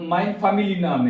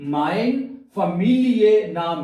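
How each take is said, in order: First: The word ends in a plain 'ee' sound. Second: The word ends in an 'ee-eh' sound. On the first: The speaker calls it wrong. "ऐसे बोलते हैं, ऐसे नहीं" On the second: The speaker calls it right. "ऐसे पढ़ना है"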